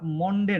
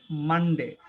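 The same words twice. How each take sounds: First: মনডে with a round o, said slowly; the wrong way, মনডে with an o; wrong pronunciation. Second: মানডে with an open a, said slowly; the correct মানডে, a as in man; right pronunciation. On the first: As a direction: say মনডে with an o sound. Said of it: "যেটা মনডে না". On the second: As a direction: say মানডে with a broad a and ending ডে. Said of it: "এটা হচ্ছে মানডে". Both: Shown as a demonstration.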